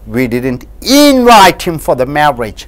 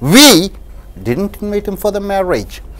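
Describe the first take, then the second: First: The stress falls on the word invite. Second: The stress falls on the word we. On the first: He was only called, not formally invited. "if you stress on invite" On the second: Someone else invited him. "when you stress the word we"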